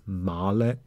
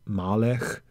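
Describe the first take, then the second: Both takes have the same delivery.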